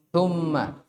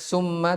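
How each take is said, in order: First: The first consonant is a soft th sound. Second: The first consonant is a hissing s sound. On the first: The speaker calls it right. "tapi apa?" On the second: The speaker calls it wrong. "Jangan dibaca summa"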